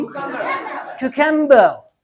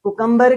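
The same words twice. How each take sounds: First: क्यूकम्बर said slowly with a clear kyu glide; correct cucumber. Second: कुकम्बर said with a plain ku, no y glide; the local kukumbar way; wrong Pinglish cucumber. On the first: Teacher to class, slow correct क्यूकम्बर. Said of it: "कुकम्बर क्या हो जाएगा जी?". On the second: Teacher to class, mock local कुकम्बर. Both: Shown as a demonstration.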